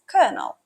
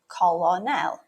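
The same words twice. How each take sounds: First: It is said the usual way, unlike its spelling. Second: It is sounded out following its spelling. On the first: The speaker calls it right. "It's actually pronounced as" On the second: The speaker calls it wrong. "pronounced as it's spelled"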